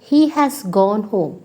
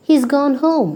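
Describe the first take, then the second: First: Said in the usual way. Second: "He's" as one syllable, higher; contracted form. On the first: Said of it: "instead of telling the whole sentence". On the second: Shown as a demonstration. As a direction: fold "has" into "He's". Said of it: "you can just say".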